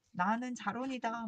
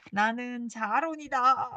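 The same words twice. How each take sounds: First: Said in the usual way. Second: Slow, loud shouted name; yelling your name out the window; mock shout. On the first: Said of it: "막 이러면서". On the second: Shown as a demonstration. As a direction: belt out your own name slowly. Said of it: "막 이러면서 소리 지를까요".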